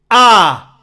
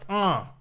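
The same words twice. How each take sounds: First: It sounds bright and punchy, cutting through. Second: It sounds muffled and nasal, without top end.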